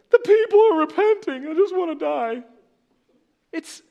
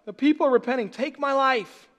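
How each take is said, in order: First: Very high, loud whining sulk; pouty Jonah. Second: Pouty Jonah. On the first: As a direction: whine like a sulking child who wants to die. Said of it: "Jonah's so pouty". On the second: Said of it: "This is what it feels like". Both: Retold or imitated.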